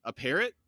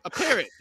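First: Said in the usual way. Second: High, loud squawk of "A parrot"; outraged echo. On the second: A narrator's reading. Crone reacts to Krupp's suggestion, high loud outrage. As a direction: repeat "A parrot" as an affront, pitch leaping up.

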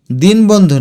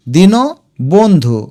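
First: দিনবন্ধু as "dinbondhu", no vowel after n; wrong run-together reading. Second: দীন বন্ধু as "dino bondhu", in two parts; correct added vowel. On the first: Teacher shows students what not to say, দিনবন্ধু run together. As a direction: join din straight onto bondhu in দিনবন্ধু. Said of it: "দিনবন্ধু না". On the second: Teacher corrects students, দীন বন্ধু with dino separated. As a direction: voice an o after দীন, then বন্ধু. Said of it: "এটা উচ্চারণ দেখো". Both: Shown as a demonstration.

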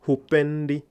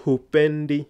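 First: Hupendi said again, loud and clear; model answer repeated. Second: Hupendi said high and loud, hu-PEN-di; model answer. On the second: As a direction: give the answer Hupendi clearly. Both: Shown as a demonstration. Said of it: "So can you construct that for me?".

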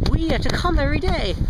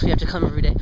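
First: High-pitched, swooping complaint; exasperated, pitched well up; emphatic complaint. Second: Said in the usual way. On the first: Real, not acted. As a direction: push it up high with indignant emphasis. First take, then corrected as unintended. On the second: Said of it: "not in that way".

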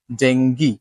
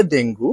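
First: ডেঙ্গি ending in ee, DENG-gee; English pronunciation. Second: ডেঙ্গু ending in u, DEN-gu; Bengali pronunciation. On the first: Teacher gives the dictionary form, English pronunciation. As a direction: say ডেঙ্গি with a final "ee". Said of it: "ইংরেজিতে কিন্তু ডেঙ্গি". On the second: Teacher shows what everyone says, Bengali pronunciation. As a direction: say ডেঙ্গু with a final "oo". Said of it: "বাংলাতে ডেঙ্গু". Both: Shown as a demonstration.

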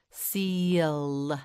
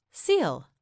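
First: "Seal" slowly with long vowel and held L; stretched out. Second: Said in the usual way. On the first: Shown as a demonstration. Teacher names the animal for learner, "Seal" stretched slowly. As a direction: draw out every sound in "Seal". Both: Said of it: "Say seal".

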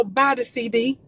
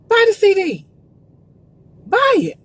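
First: Said in the usual way. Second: Emphatic urging. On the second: Real, not acted. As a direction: drive it home to the viewers. Urging viewers to buy CDs.

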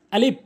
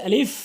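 First: আলিফ ending in a stopped p or b; mispronounced আলিফ. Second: আলিফ ending in a clear hissed f; correct আলিফ. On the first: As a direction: say আলিফ as "alip", no f. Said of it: "ভুল উচ্চারণ". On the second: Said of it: "সঠিক উচ্চারণ হচ্ছে". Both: Shown as a demonstration.

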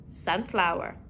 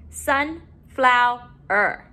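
First: Said in the usual way. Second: "Sunflower" slowly, in three beats; syllable by syllable. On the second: Shown as a demonstration. Teacher modeling syllables to put together, broken up. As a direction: split "Sunflower" with pauses between syllables. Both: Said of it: "let's put our syllables together".

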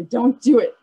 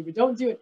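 First: Don't do it said louder, a playful firm warning. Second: Said in the usual way. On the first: Real, not acted. Teacher warning kids not to poke the bear, firm and louder. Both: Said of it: "I know you want to".

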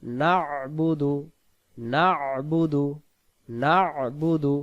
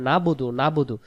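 First: না'বুদু slow, with a held throaty ayn after "na"; correct recitation. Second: না'বুদু said quickly as "nabudu"; mistaken pronunciation. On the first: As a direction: chant না'বুদু as "na'-budu". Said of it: "এখানে হবে". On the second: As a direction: say না'বুদু short, leaving out the throaty ayn. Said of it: "ইবাদত করার উচ্চারণ হবে না". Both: Shown as a demonstration.

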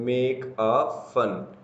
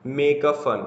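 First: MAKE, A, FUN slow and evenly separated; word-by-word. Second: Said in the usual way. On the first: Shown as a demonstration. Teacher repeating an example phrase for students, word-by-word. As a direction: draw out "make a fun" with a full, long "a".

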